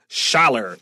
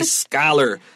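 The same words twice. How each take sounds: First: The word begins with a 'sch' sound. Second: The word begins with a 'sk' sound. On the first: The speaker calls it wrong. "so we don't say something silly like scholar" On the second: The speaker calls it right. "This is a scholar. C H with a K"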